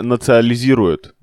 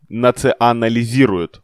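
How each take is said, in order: First: "национализирует" said as "нацилизирует", a syllable swallowed; "национализирует" garbled by skipping the middle syllable "на"; slip of the tongue. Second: "национализирует" said slowly, every syllable "на-ци-о-на-ли-зи-ру-ет" clear; "национализирует" spelled out slowly with the full "-нали-" syllable; careful correction. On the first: Real, not acted. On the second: Shown as a demonstration. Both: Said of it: "вот правильное слово".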